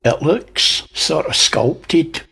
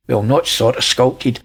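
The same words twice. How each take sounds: First: Said in the usual way. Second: "not" pressed a little harder than the rest; stress on not. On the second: Shown as a demonstration. Correcting himself to viewers, mild stress on "not". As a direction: lean on "not" to correct yourself.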